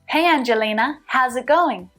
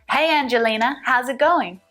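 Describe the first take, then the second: Both takes have the same delivery.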